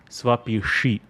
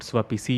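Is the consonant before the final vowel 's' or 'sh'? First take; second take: sh; s. First: The last syllable begins with an 'sh' sound. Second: The last syllable begins with a plain 's'. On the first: The speaker calls it right. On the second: The speaker calls it wrong. "It's not Swapisi"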